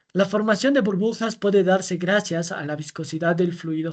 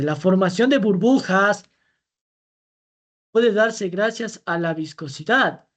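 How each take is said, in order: First: Said in the usual way. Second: Slow down and lean on "puede", as if doubting it; teacher slows the false option so the class can catch the error; slow emphatic reread. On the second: Shown as a demonstration. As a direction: reread the claim slowly, letting "puede" hang. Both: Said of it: "Fíjense".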